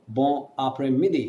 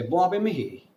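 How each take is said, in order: First: "bon après-midi" with each syllable sounded; careful learner's "bon après-midi", clear r and d; neutral accent. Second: Fast, run-together "bon après-midi", consonants swallowed; native French accent. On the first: Teacher showing what a native won't say, neutral accent. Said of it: "He's not gonna say". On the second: Teacher showing what a native will say, quick native accent. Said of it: "he's gonna say". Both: Shown as a demonstration.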